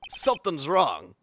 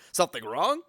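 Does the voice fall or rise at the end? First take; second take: falls; rises. First: The voice falls at the end. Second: The voice rises at the end.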